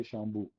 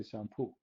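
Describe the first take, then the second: First: Shampoo said as "shambu", open "a" and soft b; Middle Eastern shampoo. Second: Shampoo with a flat "a" and a crisp p; Western shampoo. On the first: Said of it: "in the Middle East we say". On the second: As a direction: say shampoo the Western way, sham-poo. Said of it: "they say". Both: Shown as a demonstration.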